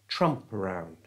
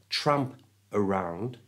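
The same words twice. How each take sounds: First: The P moves onto the start of the next word. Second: The P is kept apart from the next word. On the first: The speaker calls it right. "we can move the P, the P from the end of tramp, to the front of it" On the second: The speaker calls it wrong. "So it's not tramp around"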